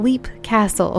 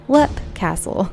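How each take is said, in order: First: The first word has a long 'ee' vowel. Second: The first word has a short 'e' vowel. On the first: The speaker calls it wrong. "I hope you got a good laugh at me saying Leap Castle" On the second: The speaker calls it right. "I have since learned that it's pronounced Lep Castle"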